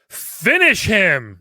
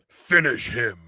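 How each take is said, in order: First: It is said in a sassy, joking way. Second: It is said in a serious announcer way.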